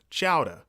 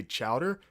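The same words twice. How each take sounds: First: Boston-style chowder, ending in "ah"; Boston accent. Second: Said in the usual way. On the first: Shown as a demonstration. Host using a word to trigger the accent, Boston accent. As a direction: drop the final r of chowder like a Bostonian. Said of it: "how I always have to trigger is say chowder".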